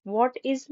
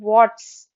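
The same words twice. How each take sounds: First: Said in the usual way. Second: What's as one syllable; contracted what's. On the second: Shown as a demonstration. Teacher showing what's in place of what is. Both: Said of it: "what is नहीं".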